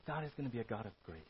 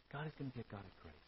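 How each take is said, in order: First: Soft emphasis. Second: Much softer, fast and hushed; softer repeat. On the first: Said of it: "repeated line". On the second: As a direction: let it sink in quietly. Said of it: "repeated softer". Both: Shown as a demonstration.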